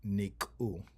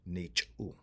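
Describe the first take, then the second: First: The second syllable starts with a k sound. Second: The second syllable starts with a ch sound. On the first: The speaker calls it wrong. "instead of saying niku" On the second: The speaker calls it right. "we change that to nichu"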